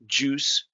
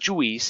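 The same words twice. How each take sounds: First: The letter I is silent. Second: The letter I is sounded. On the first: The speaker calls it right. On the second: The speaker calls it wrong.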